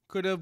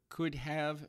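First: The second word is reduced to a weak 'of'. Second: The second word is said as a full 'have'. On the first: "The ofs" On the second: "or the haves"

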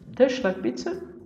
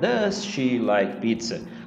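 First: Does and she run together as one unit. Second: Does and she are said as separate words. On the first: The speaker calls it right. "eu vou fazer a mesma junção" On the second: The speaker calls it wrong. "se você fala separadinho"

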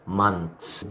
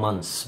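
First: A t sound comes right before the final s. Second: The n runs straight into the final s. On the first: "ممكن تقول التي والاس" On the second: "التي كمان ممكن تتشال وتقول الان الان اس"

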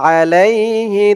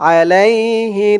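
Both takes have the same delivery.

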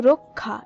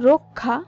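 No difference in how they are said.

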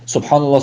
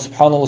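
First: The phrase is said slowly with every sound clear. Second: The phrase is rushed and its sounds are slurred. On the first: The speaker calls it right. "Subhanallah demeleri gerekirken" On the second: The speaker calls it wrong. "gayri sahih bir şekilde, bozuk bir şekilde"

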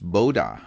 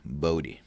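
First: The name is said with a Dutch pronunciation. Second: The name is said with an English pronunciation. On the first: "In Dutch, it's pronounced Boda" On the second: "in English also, according to Wikipedia, it is pronounced Bode"

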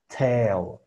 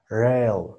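First: The consonant is a hard, clear t. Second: The consonant is a quick r-like flap. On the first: "voy a pronunciarla como T fuerte" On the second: "Ahora como T débil, ¿no? Que sería como R"

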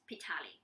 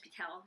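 First: The name ends with an extra vowel sound. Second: The name ends without an extra vowel sound. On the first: This is the French-style reading of the name. "we actually use the French spelling. The E with that stroke, right? So we read it as Pitali" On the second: This is the everyday local reading of the name. "But most of us pronounce as Pitel"

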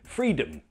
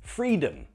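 First: The second syllable has a reduced schwa vowel. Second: The second syllable has a reduced schwa vowel.

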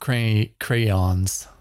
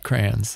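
First: The word is said in a careful, standard pronunciation. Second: The word is said in a casual, regional pronunciation. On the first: This is not how the speaker normally says it. "New lie" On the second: This is how the speaker naturally says it. "Say how you really say it"

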